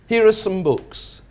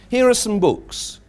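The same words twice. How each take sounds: Both takes have the same delivery.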